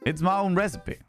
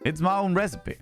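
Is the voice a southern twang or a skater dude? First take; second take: southern twang; southern twang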